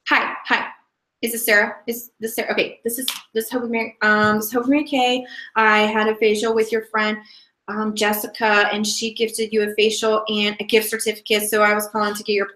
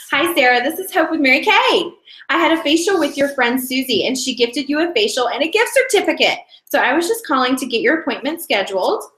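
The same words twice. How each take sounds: First: Halting, stumbling phone call with restarts; hesitant, unpolished script reading; nervous beginner. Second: Upbeat, fluent sales call; practiced, cheery caller with lifted pitch; flowy phone script. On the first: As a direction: read it haltingly like a nervous first-timer. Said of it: "This is how you're probably gonna sound". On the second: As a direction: deliver the script brightly without hesitating. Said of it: "the reason I sound so flowy". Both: Shown as a demonstration.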